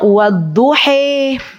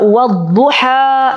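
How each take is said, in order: First: The word ends with a fronted 'e/i' vowel. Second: The word ends with an open 'a' vowel. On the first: This is the reading of another transmission tradition. "di qiraat yang lain itu ada wadduhi" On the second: This is the reading commonly used locally. "kita baca wadduha gitu kan ya"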